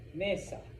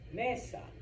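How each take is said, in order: First: The stress is on the first syllable. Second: The same.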